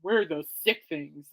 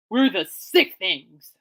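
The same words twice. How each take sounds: First: Lower, slower death metal take; a lightly growled death metal band name; mock death metal. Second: Slow, loud mock band intro; Bemidji-free stage shout, hammed up; band announcer. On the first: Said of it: "death metal?". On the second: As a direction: announce the band like a rock frontman. Pitching a band name.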